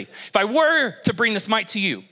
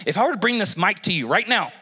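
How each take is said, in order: First: "were" stretched as the strongest word; stress on "were". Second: Said in the usual way. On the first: Real, not acted. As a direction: lean long on "were" to mark it hypothetical. Stresses the hypothetical after "theoretically.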